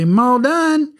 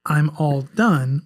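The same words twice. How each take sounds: First: Put-on little girl's high, Southern-drawled call; exaggerated Southern twang. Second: Said in the usual way. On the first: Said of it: "it sounded so Southern". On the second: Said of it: "I'm gonna translate it before I say it".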